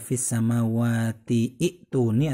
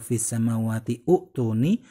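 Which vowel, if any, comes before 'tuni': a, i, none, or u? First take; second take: i; u. First: An 'i' vowel is sounded before 'tuni'. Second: A 'u' vowel is sounded before 'tuni'. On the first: "Bukan dibaca"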